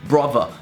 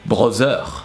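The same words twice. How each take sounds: First: Said in an English accent with an English ending. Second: Said in a French accent with a French ending. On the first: "the er at the end of a word" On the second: "would be changed by er"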